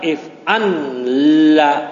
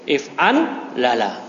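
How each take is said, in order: First: The two L sounds merge into one doubled L. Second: The two L sounds are kept separate with a vowel. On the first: The speaker calls it wrong. "jangan dibaca if an la" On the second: The speaker calls it right. "tapi if an la la"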